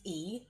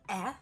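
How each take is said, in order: First: A long vowel sound, saying the letter's name. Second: A short vowel sound, as in bed. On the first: "E is E" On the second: "The short E sound is E"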